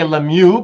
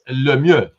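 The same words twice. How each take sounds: First: The name is said with an American accent. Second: The name is said with a Quebec French accent. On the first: The speaker calls it wrong. "the Americans say Lemieux" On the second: The speaker calls it right. "if you want to say it French like Quebec, it's Lemieux"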